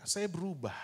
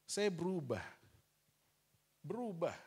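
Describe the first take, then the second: First: Saya punched firmly, falling at the end; an emphatic first telling; firm declaration. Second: Saya berubah said again more softly and reflectively; a reflective second telling; soft echo. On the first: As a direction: state saya berubah with weight. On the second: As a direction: let the repeat sink in quietly. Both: Shown as a demonstration.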